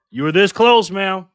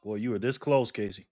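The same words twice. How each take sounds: First: Louder, higher exclamation; emphatic near-miss remark. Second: Softer, lower disbelief; subdued near-miss remark. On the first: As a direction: push it up and out emphatically. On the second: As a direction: say it low and subdued. First take on a near miss. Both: Real, not acted.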